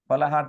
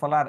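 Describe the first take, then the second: First: An h sound is heard before the last syllable. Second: No h sound is heard before the last syllable. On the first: "ফলাহার থেকে ফলার একবার হ লোপ পেয়েছে" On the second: "একবার হ লোপ পেয়েছে"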